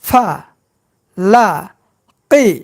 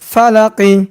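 First: Each syllable is said separately with breaks. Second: The syllables are joined in one smooth word. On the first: "এবার ভাঙ্গা ভাঙ্গা উচ্চারণ।" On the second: "এবার একসঙ্গে উচ্চারণ করব।"

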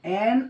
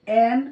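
The two takes are said the same way.

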